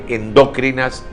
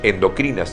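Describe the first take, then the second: First: The stress is on the second syllable. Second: The stress is on the third syllable. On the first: The speaker calls it wrong. "incurre en error el galeno que habla de endócrinas" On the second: The speaker calls it right. "deben ser pronunciados como palabras graves"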